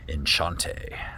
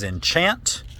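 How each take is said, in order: First: The name is said in a fancier way. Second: The name is said in a plain way.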